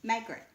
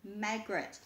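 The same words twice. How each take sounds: First: Margaret with a clipped end; corrected reading. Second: Margaret as /mæɡɹɪt/, first vowel as in cat; wrong reading. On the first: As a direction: settle on Margaret. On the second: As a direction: misread Margaret with a short a. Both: Shown as a demonstration. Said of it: "not Margaret".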